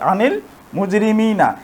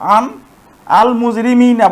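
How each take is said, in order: First: An 'i' vowel joins the n to the l. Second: Two vowelless consonants meet with no vowel added. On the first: The speaker calls it right. "এখন আমরা এটিকে সরাসরি মিলিয়ে পড়তে পারতেছি" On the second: The speaker calls it wrong. "এটি আর উচ্চারণ করা যায় না"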